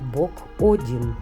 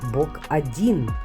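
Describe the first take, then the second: First: The stress is on the first syllable of 'odin'. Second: The stress is on the second syllable of 'odin'. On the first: It names the god Odin. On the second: It says there is one god.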